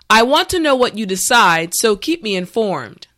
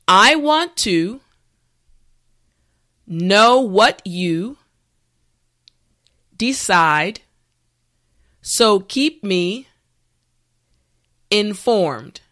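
First: The sentence is spoken at a regular pace. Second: The sentence is spoken slowly. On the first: "the last time at a regular pace" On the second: "this time repeat after me"

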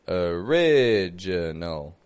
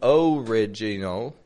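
First: The first vowel is a reduced schwa. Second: The first vowel is a full O. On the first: The speaker calls it right. "that O isn't sounding like an O" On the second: The speaker calls it wrong. "I'm not saying original"

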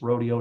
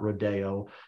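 First: The word is said the local Texan way. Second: The word is said the way outsiders say it. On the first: The newcomer has become a Texan. The speaker calls it right. "they learn it's rodeo" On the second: The speaker is not yet a Texan. The speaker calls it wrong. "not rodeo"

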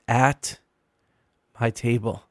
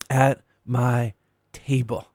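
First: The word "at" carries the stress. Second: The word "table" carries the stress. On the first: "emphasizing each of the three words" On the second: "emphasizing each of the three words"

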